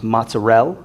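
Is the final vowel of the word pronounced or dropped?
dropped. The final vowel is dropped, Campania style.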